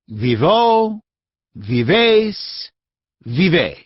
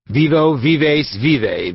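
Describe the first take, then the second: First: The words are said slowly and clearly. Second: The words are muttered quickly and quietly. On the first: "read very slowly and distinctly" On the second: "repeated in a rapid mutter"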